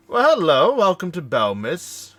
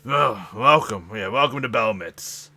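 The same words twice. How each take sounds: First: High, loud, slow sing-song welcome; chirpy greeter. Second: Loud, slow, oily greeting; smothering welcome. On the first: Harbor greeter welcoming the arriving crew, loud and high. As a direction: beam out a gushing welcome. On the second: Greasy harbor official welcoming the crew, loud and slow. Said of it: "he just smothers". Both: Acted.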